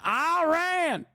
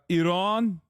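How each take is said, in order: First: The first vowel is a hard 'eye' sound. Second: The first vowel is a soft 'ee' sound. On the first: The speaker is an American outside the diaspora. "They hit the hot, the hard I" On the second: The speaker is from the Iranian diaspora. "the diaspora Iran, Iranian voice"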